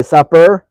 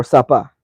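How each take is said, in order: First: "supper" ending in a clear R sound. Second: "suppa" ending in an open A; suppa without R. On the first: Asking how a viewer's wife talks, "supper" with full R. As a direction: pronounce the final R in "supper". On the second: Asking how a viewer's wife talks, "suppa" with A ending. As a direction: drop the final R, "suppa" ends on A. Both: Shown as a demonstration. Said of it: "does it end with an A".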